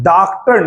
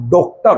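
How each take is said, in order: First: डॉक्टर with a plain short a, like daktar; wrong pronunciation. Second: डॉक्टर with the rounded English o, like doktar; correct pronunciation. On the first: Teacher showing students the wrong daktar. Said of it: "नहीं होता". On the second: Teacher giving students the correct doktar. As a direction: say डॉक्टर with the open o of doctor. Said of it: "होता है". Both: Shown as a demonstration.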